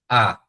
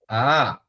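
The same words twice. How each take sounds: First: The vowel is said on a low tone. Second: The vowel is said on a rising tone. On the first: "é baixo"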